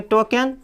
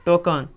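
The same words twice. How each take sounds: First: टोकन as "toh-ken", with a clear "e"; spelling-style टोकन with "e" before n; mispronunciation demo. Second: टोकन as "TOH-kun"; teacher's answer टोकन, ending "-kun"; correct pronunciation. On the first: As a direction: say टोकन wrongly, ending "-ken". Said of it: "तो गलती हो जाएगा इसका उच्चारण". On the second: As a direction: say टोकन with schwa in the last syllable. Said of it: "क्या पढ़ेंगे". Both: Shown as a demonstration.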